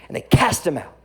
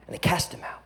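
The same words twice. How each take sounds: First: Said in the usual way. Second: "And they cast him out" breathed as an unvoiced whisper; a hushed, solemn "And they cast him out". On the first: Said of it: "repeated as a whisper". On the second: Shown as a demonstration. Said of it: "first said plainly".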